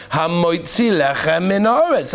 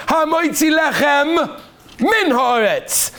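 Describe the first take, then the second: First: Hamoitzi lechem min haaretz slow but lechem and min blended, no gap; slow run-together. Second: Hamoitzi lechem, a clear pause, then min haaretz, slow and higher; careful separation. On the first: Rabbi quizzing the class, slow blurred blessing. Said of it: "I'm saying it slowly". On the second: Rabbi modelling the correct blessing for students, slow and precise. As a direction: split lechem from min haaretz with a deliberate gap. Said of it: "No, Rabbi Sai". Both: Shown as a demonstration.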